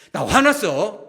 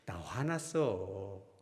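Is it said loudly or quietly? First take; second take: loudly; quietly. First: It is said loudly and angrily. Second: It is said very quietly and low.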